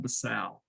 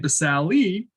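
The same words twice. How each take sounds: First: The final e is not sounded. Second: The final e is sounded aloud. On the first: The speaker calls it right. "the correct pronunciation for number one is the stratum basale" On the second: The speaker calls it wrong. "I say basale, so when you spell it on the test, you don't forget that there's an E on there"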